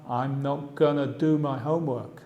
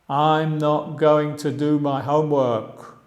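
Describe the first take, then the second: First: Going to is reduced to a short gonna. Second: Going to is said as two full words.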